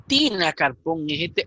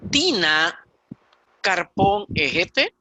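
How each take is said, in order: First: Said in the usual way. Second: "Tina Carpón Ejete" dicho despacio, palabra por palabra; dictado lento. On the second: Shown as a demonstration. (ejemplo leído lentamente)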